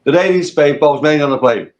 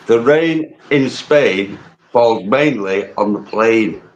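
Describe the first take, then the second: First: Everyday northern English accent; local English accent. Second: Slow, carefully enunciated repeat of the teacher; elocution drill. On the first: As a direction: say it like you would at the local pub. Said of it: "I'll say it how I would say it to someone round here". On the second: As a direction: sound out every word slowly and properly. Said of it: "All right, repeat after me". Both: Shown as a demonstration.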